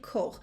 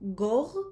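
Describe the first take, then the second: First: The word begins with a voiceless k sound. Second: The word begins with a voiced g sound. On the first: This is the Western Armenian form. "In Western Armenian we say kor" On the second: This is the Eastern Armenian form. "In Eastern Armenian we say gor"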